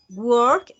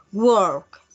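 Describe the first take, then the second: First: Said in the usual way. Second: "work" stretched into a long sound; drawn-out syllables. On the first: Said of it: "Work tiene dos sílabas". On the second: Shown as a demonstration. Teacher letting students hear two sounds in work, drawn out. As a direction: lengthen "work" so it seems to have two beats. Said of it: "ustedes escuchan que el sonido".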